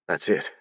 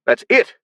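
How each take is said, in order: First: Quiet. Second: High, loud excited shout. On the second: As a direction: burst out, thrilled. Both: A narrator's reading. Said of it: "he shouted".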